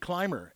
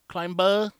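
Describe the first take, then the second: First: The B sound is almost not heard. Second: The B sound is clearly and strongly pronounced. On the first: It is how a native speaker says it. "you almost don't hear the B" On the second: It is how a non-native speaker says it. "they'll overemphasize the B"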